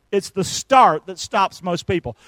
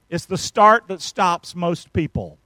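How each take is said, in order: Both takes have the same delivery.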